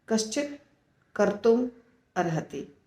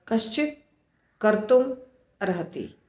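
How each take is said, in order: Both takes have the same delivery.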